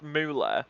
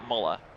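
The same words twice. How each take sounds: First: The name has its non-British pronunciation. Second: The name has a British pronunciation. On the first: "I know it's pronounced Muller" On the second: "I'm British and we pronounce it Muller"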